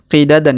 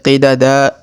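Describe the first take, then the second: First: The word ends with an n sound. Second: The word ends on a lengthened vowel. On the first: The speaker calls it wrong. "bukan qidadan ya" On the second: The speaker calls it right. "tapi qidada, kita panjangkan dua harokat"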